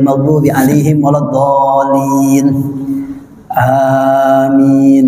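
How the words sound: A short pause comes before amin. The speaker calls it right. "Jadi ada jedah di situ"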